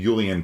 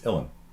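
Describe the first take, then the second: First: The word starts with a 'j' sound. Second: The word starts with a vowel sound. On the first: The speaker calls it wrong. "these are not the Julian pipes" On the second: The speaker calls it right. "it's Ullin"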